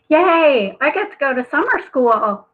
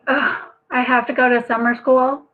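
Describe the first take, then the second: First: It is said in an excited, cheerful tone. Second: It is said in a reluctant, groaning tone.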